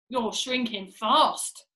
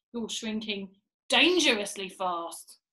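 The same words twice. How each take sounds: First: Drawn-out warning, leaning on "fast"; slow taunt. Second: "dangerously" picked out after a slow build; pause, then lean hard on "dangerously"; ominous emphasis. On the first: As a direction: stretch "shrinking" and land firmly on "fast". Mr Twit taunting, first statement. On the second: Mr Twit escalating the taunt. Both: Acted.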